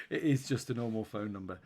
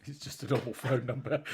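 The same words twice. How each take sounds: First: "is" leaned on, "It is just a normal phone number"; stress on is. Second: Said in the usual way. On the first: Shown as a demonstration. Host insisting to cohost, stress on "is". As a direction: insist with "is" pressed.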